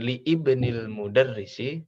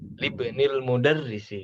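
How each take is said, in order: First: The initial vowel of ibnil is pronounced separately. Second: The initial vowel of ibnil is dropped and joined. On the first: The speaker calls it wrong. "Jadi bukan li ibnil mudarrisi" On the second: The speaker calls it right. "Libnil mudarrisi, misalkan gitu"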